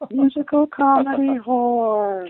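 It is said in a special put-on voice.

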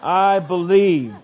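It is said like a Pentecostal preacher, adding 'uh'.

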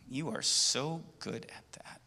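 The voice sounds grudging and jealous. The speaker envies the listener's skill. "there's a little bit of jealousy"

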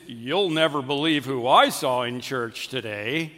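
It sounds judgmental and disapproving.

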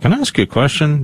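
The voice sounds grave and ominous. Something worrying may be coming. "But if it's like, you know, can I ask you a question? Then perhaps so"

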